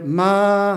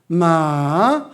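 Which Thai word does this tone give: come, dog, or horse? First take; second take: come; dog. First: It is said with the tone for 'come'. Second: It is said with the tone for 'dog'. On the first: It means to come. "마 하면 온다는 거예요" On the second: It means a dog. "강아지"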